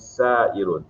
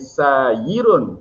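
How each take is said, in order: First: The middle consonant is a glottal stop. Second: The middle consonant is a y sound. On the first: This is the form after the sound change. The speaker calls it right. "Ditukar menjadi sairun" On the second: This is the regular form before the sound change. The speaker calls it wrong. "sepatutnya jadi sayirun, tapi tak"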